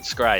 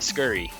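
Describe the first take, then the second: First: It is said as one syllable. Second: It is said as two syllables.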